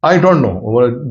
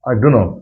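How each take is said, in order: First: Each word is said fully and separately. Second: The words run together into a short reduced form. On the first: "जैसे आपने बोला आई डोंट नो" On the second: "that is the contraction word"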